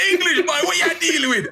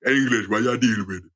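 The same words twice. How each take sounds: First: Lightly imitated Caribbean kid, laughing; a hint of a Caribbean boy's taunt. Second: Put-on low Caribbean kid's voice; deeper voice. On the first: Speaker imitating a Caribbean boy calling him English. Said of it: "a ten-year-old with a deeper voice". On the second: Speaker imitating a deep-voiced Caribbean boy teasing him. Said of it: "with a deeper voice than you".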